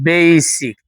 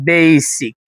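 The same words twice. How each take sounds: Both takes have the same delivery.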